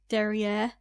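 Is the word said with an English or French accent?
English. It is said with an English accent. The speaker calls it wrong. "don't say it as derrière"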